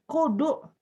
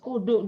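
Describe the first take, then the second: First: The final vowel is held long. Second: The final vowel is kept short. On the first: The speaker calls it wrong. "Salah salah" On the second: The speaker calls it right. "Do-nya pendek"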